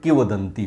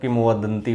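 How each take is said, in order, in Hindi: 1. पहले अक्षर के बाद 'm' की ध्वनि नहीं आती। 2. पहले अक्षर के बाद 'm' की ध्वनि आती है। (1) "लेकिन किवदंती होता है" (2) "अक्सर हम किम वदंती बोलते हैं"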